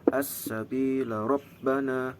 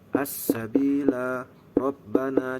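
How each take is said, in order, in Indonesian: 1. Dibaca disambung, dengan satu vokal dihilangkan. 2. Dibaca seperti berhenti, vokal tetap dipertahankan.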